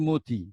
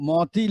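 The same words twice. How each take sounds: First: মতি as mo-ti, closed o; spoken pronunciation. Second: মতি as maw-ti, open vowel; spelling pronunciation. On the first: Teacher shows the spoken form, মতি with closed o. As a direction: round the vowel in মতি to ও. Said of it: "কিন্তু বলছি". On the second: Teacher reads the written form, মতি with open aw. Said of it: "লিখছি". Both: Shown as a demonstration.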